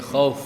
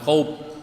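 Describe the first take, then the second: First: The final f ends with lips slightly open. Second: The final f ends with the lips closed. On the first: The speaker calls it right. "Masih ada rongga bibir yang terbuka" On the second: The speaker calls it wrong. "bukan khauf"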